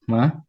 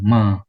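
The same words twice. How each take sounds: First: The pitch goes up throughout. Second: The pitch stays level throughout. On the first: "nada kedua, nada naik" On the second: "nada pertama nada datar"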